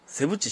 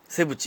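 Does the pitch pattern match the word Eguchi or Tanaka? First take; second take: Tanaka; Eguchi. First: Its pitch pattern matches the word Tanaka. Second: Its pitch pattern matches the word Eguchi. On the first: The speaker calls it right. "田中翔太。セブチ翔太。" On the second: The speaker calls it wrong. "江口は江口さんやもんな。江口洋介。セブチ洋介やもんな。"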